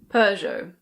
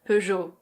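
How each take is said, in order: First: It is said in a British accent. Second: It is said in a French accent. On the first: "In British English, people say Peugeot" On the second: "In French, this is pronounced Peugeot"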